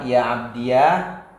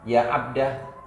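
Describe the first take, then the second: First: The word ends in the syllable iya. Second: The word ends in a short a. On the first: "menetapkan ya mutakalim dibaca fathah" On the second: "membuang alif"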